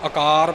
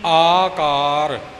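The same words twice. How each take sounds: First: The first vowel is short. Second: The first vowel is long. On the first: The speaker calls it wrong. "ਆਮ ਤੌਰ 'ਤੇ ਆਪਾਂ ... ਪੜ੍ਹ ਜਾਂਦੇ ਹਾਂ" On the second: The speaker calls it right. "ਐੜੇ ਦਾ ਕੰਨਾ ਖਿਆਲ ਵਿੱਚ ਰੱਖਣਾ"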